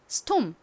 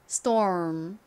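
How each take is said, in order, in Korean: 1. 한국식 음절과 모음으로 발음합니다. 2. 미국식 r 발음이 들어간 모음으로 발음합니다. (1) "먼저 한국식 발음해볼게요" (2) "미국식 원어 발음으로도 해볼까요?"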